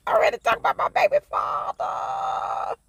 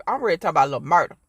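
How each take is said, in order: First: Very high, playful squeal; gushing fangirl squeal. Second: Said in the usual way. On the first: Pretend. Vlogger gushing over her baby father, playful squeal. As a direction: squeal it like a smitten fan. Gushes over favourite character after laughing.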